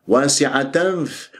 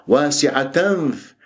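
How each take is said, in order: The two takes are said the same way.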